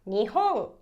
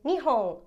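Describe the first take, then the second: First: The second syllable is pitched higher. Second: The second syllable is not pitched higher. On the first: It means Japan. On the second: It is a different word, not Japan.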